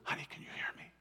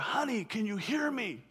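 First: It is whispered softly. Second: It is said aloud, louder.

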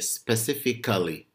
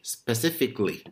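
First: The vowel before -ly is pronounced. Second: The vowel before -ly is silent. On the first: The speaker calls it wrong. "I hear students will say specifically. No" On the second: The speaker calls it right. "you should say specifically"

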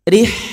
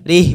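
First: The final h has clearly flowing breath. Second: The final h has little audible breath. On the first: The speaker calls it right. "Ada nafas yang mengalir" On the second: The speaker calls it wrong. "Rih, bukan"

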